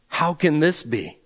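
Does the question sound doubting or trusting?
doubting. It sounds doubting and skeptical.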